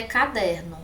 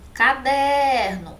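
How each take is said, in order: First: Said in the usual way. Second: "Caderno" slow, high and loud on a stretched DER; stressed middle syllable. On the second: Shown as a demonstration. Teacher showing the tonic syllable, long stressed DER in "Caderno". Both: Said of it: "porque é o D que é a sílaba tônica".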